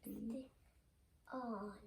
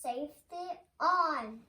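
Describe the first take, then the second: First: Quiet first try. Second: Louder repeat. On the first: Real, not acted. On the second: Shown as a demonstration. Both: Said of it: "Say it again".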